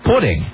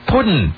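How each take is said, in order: First: The word ends with a full -ing sound. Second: The word ends with a clipped -in sound. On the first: "he didn't say pudding" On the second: "He said puddin'"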